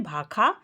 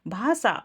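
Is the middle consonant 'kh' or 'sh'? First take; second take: kh; sh. First: The middle consonant is a 'kh' sound. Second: The middle consonant is an 'sh' sound. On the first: This is the Awadhi dialect form. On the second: This is the standard form.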